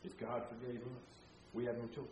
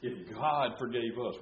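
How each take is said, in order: First: Much softer, reflective restatement; softer repeat. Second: Slow, deliberate stress on God; emphatic point. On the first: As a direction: say it again gently. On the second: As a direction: lay down the principle weightily. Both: Shown as a demonstration. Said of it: "we talked about this last time".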